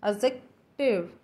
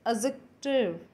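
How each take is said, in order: No difference in how they are said.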